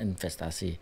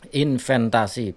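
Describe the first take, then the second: First: The second syllable ends with an s sound. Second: The second syllable ends with an n sound. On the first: The speaker calls it right. "padahal yang benar investasi" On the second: The speaker calls it wrong. "itu tidak tepat atau ya secara pengucapannya hmm, salah lah"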